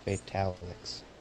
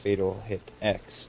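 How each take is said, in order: First: The name is run together into one word. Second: The name is said as three separate words. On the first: The speaker calls it wrong. "not Fatalix" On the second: The speaker calls it right. "pronounced Fatal Hit X"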